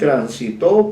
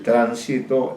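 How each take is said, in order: First: The stress is on the third syllable. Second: The stress is on the first syllable. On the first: It is a past-tense verb, third person. "en un tercer caso es aguda" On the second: It is a noun meaning traffic. "en un caso es esdrújula"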